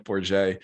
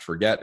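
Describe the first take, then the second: First: "four j" said as for-ZHAY; correct surname pronunciation. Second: "forget" said like the English verb; mispronounced surname. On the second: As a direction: say "forget" with a hard g and sounded t. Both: Shown as a demonstration. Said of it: "It is not pronounced forget".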